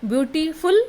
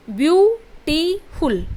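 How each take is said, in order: First: Said in the usual way. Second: ब्यूटीफुल slowly split into three beats, ब्यू, टी, फुल; teacher sounding out ब्यूटीफुल in three clear syllables. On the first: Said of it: "ब्यूटीफुल बोलने में". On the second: Shown as a demonstration. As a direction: break ब्यूटीफुल into ब्यू - टी - फुल, louder and separated. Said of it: "तीन बार बदली है".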